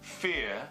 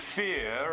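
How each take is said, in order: First: The final R is dropped. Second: The final R is heard, linking forward. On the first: "all by itself, the R would just drop" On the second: "it comes back in there"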